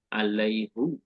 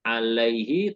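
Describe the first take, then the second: First: The final syllable is pronounced with a 'u' vowel. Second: The final syllable is pronounced with an 'i' vowel. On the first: This is how some other Arabic dialects read it. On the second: This is the usual reading.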